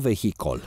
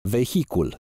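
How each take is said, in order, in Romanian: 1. A treia silabă are vocala o. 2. A treia silabă are vocala u. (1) "nu vehicol" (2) "se pronunță corect cu U"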